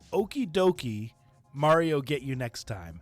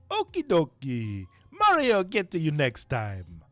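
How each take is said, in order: First: It is read in the speaker's normal voice. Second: It is read in a put-on cartoon character voice.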